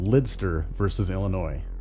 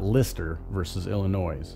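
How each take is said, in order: First: The name is said with a d sound. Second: The name is said without a d sound. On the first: The speaker calls it right. "Let's talk about" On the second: The speaker calls it wrong.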